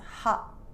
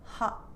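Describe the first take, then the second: First: The final T is stopped in the throat. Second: The same.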